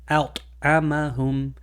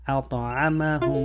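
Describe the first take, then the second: First: The t is stopped with a gap, no bounce. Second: The t gets a slight echoing bounce. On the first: The speaker calls it wrong. "to try to remove the qalqala, it will sound like this" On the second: The speaker calls it right. "we want to give it a little bit of a ta sound"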